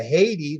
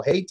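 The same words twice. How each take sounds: First: Haiti as HAY-tee; usual pronunciation. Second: Haiti as HAY-tie; local pronunciation. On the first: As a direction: say Haiti like the country. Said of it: "there's a Haiti that we call". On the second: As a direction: end Haiti on a tie sound. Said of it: "that we call Haiti". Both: Shown as a demonstration.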